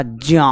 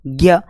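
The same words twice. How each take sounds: First: "ज्या" said as "jya", starting on j; "ज्या" with j in place of g; correct pronunciation. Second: "ज्ञ" said as "gya"; "ज्ञ" opening on g, as people commonly say it; listeners' wrong pronunciation. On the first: Shown as a demonstration. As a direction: say "ज्या" with a j-y glide and long a. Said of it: "तो उच्चारण क्या होगा?". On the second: Retold or imitated. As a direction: say "ज्ञ" with a hard g plus y. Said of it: "और आप क्या बोलते हो?".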